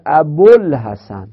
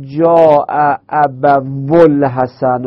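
First: ابوالحسن run together as "abolhasan", the waw unheard; ابوالحسن with the waw swallowed; waw dropped. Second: جاء ابوالحسن said slowly with the waw of ابوالحسن sounded as "abu"; slowly articulated جاء ابوالحسن with the waw kept; waw pronounced. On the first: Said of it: "واو در تلفظ من میفته". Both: Shown as a demonstration.

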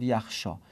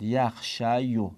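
First: یخشا ending in a long "ā", no "yo"; final long alef. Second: یخشیو with the final "yo" sounded out; audible final o. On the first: Teacher showing the changed form, final long aa. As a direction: say یخشا with the y turned into an open aa. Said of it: "یه تبدیل به الف شد". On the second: Teacher showing students the original form, final o sounded. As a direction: draw out یخشیو slowly, ending on an o vowel. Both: Shown as a demonstration.

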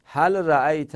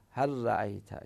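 First: Said in the usual way. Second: هل رأیت said as harra'ayt, the lam merged into a doubled r; هل رأیت pronounced harra'ayt with the lam assimilated; merged demo. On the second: Shown as a demonstration. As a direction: run the l into the r of هل رأیت. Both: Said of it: "اینطوری ادغام کنیم".

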